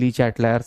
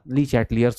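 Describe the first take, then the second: First: The third syllable sounds like 'lie'. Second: The third syllable sounds like 'lee'. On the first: This is said only as a joke. The speaker calls it wrong. "हंसी मजाक के लिए" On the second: This is the proper way to say the name. The speaker calls it right. "होता है भाई"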